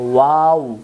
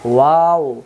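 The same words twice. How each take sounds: The two takes are said the same way.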